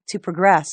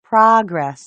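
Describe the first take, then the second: First: "progress" stressed on the second syllable, pruh-GRESS; verb stress. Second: "progress" stressed on the first syllable, PRAH-gress; noun stress. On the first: Teacher showing the verb, "progress" as pruh-GRESS. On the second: Teacher showing the noun, "progress" as PRAH-gress. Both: Shown as a demonstration.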